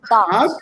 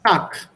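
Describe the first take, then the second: First: The word ends with a voiced g sound. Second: The word ends with a voiceless k sound. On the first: "if you have here" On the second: "this becomes Tak"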